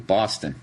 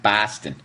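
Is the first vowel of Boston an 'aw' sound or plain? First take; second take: aw; plain. First: The first vowel is a drawn-out 'aw' sound. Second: The first vowel is a plain, non-'aw' sound. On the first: The speaker calls it right. "B A W, Boston" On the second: The speaker calls it wrong. "not Boston"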